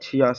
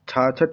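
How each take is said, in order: First: It is said in the full form chhiyasath. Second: It is said in the short form chhachhath. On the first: This is the standard form. The speaker calls it right. "इसका छियासठ" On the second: This is the common everyday form. The speaker calls it wrong. "छाछठ नहीं होता है जो हम लोग आमतौर से बोलते रहते हैं"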